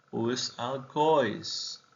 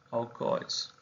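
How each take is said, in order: First: Said in the usual way. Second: "Alcoholes" susurrado como "aucóis", sin voz; susurro. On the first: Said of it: "O alcohol". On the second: Shown as a demonstration. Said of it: "os alcoholes". (la palabra repetida en voz baja, susurrada)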